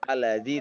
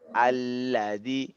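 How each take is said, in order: First: The letters are rushed and clipped short. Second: Each letter is given its full length. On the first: The speaker calls it wrong. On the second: The speaker calls it right. "habiskan dia hak-hak setiap huruf itu"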